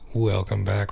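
It is said warmly, like the speaker cares.

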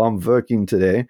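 Working begins with a sound between W and V.

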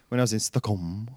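Stockholm is said with a put-on Swedish-style pronunciation. "you went"

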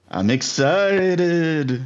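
It is said in a spooky, ghostly voice.

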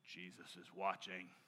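It sounds stern and scrutinizing, like a warning. Someone is checking up on your work. The speaker calls it wrong. "There's this sense of like"

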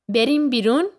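It is said as a question, rising.

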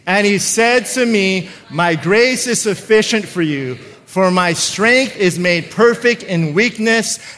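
It is read with strong passion and feeling.

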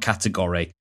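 American style, with the ending vowel fully pronounced. "and not category, as the Americans do"

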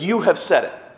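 The words sound harsh and accusing. The speaker is blaming the listener. The speaker calls it wrong. "that's accusing"

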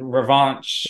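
It is said the way a Floridian says it.

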